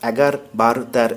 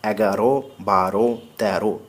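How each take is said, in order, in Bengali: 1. প্রতিটি শব্দ তার শেষ ব্যঞ্জনে শেষ হয়। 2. প্রতিটি শব্দ শেষে অ-কার দিয়ে শেষ হয়। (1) "এরকম নয়" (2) "অন্ত অকার উচ্চারিত"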